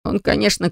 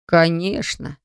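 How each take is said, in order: First: Said in the usual way. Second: Breathy. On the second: Acted. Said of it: "с придыханием отозвался Зет".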